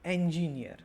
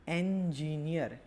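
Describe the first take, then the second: First: Said in the usual way. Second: એન્જિનિયર slowed, with the opening એન held; એન્જિનિયર in slow, separated syllables; first syllable drawn out. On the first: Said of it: "પછી છે આપણે". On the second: Shown as a demonstration. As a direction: stretch out એન્જિનિયર to show its first vowel.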